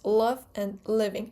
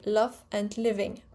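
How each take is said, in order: First: The L sounds are dark and velarized. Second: The L sounds are light and clear. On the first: "But in American English, it's almost always dark L" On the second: "in English, English modern R P, it will be love and living"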